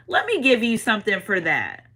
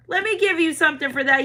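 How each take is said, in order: First: Said in the usual way. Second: Repeated much higher, generous and eager; high excited spirit voice. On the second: Acted. Spirits offering the viewer a gift, high excited voice.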